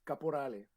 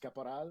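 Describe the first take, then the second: First: The name is said with Italian pronunciation. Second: The name is said with French pronunciation. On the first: "it's an Italian last name" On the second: "the francophone way"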